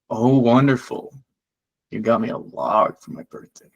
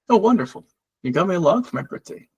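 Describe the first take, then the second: First: It is said in a sarcastic tone. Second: It is said in a plain, sincere tone.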